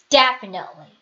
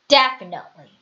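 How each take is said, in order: No difference in how they are said.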